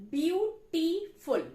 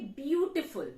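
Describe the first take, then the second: First: Beautiful said slowly, syllable by syllable; slow syllable demo. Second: Said in the usual way. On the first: Shown as a demonstration. Teacher showing students the syllables, slow and clear. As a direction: spell out beautiful in three beats. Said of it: "of three syllable". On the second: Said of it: "beautiful is made of, of three syllable".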